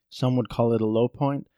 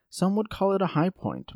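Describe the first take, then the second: First: Said in the usual way. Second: Higher-pitched, lighter contrasting line; pitched up high, ending in a fall; raised pitch. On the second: Shown as a demonstration. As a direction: lift the pitch through "high point". High point set against low point.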